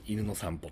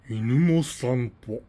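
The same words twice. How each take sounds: First: It is said flatly, as a plain phrase. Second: It is said with vivid, specific feeling. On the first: Just any dog being walked. "犬という一般名詞がありますね" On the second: One particular dog and scene is meant. "これをまたハイコンテクスト化します"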